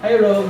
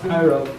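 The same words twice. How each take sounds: First: The greeting sounds overly eager and familiar. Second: The greeting sounds brief and businesslike. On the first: The greeting is too personal for a work meeting. The speaker calls it wrong. "Hindi pwedeng, hi Rob, ganun. Hindi ganun" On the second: The greeting keeps things professional. The speaker calls it right. "Dapat, hi Rob. Ganun lang"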